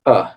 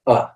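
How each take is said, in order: First: Uh held a bit longer, with stress; stressed schwa. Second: Uh as a very short, neutral middle vowel; short unstressed schwa. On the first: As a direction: give uh more weight and length. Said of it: "It's a bit longer". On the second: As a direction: say uh briefly, without stress. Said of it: "it's very short". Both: Shown as a demonstration.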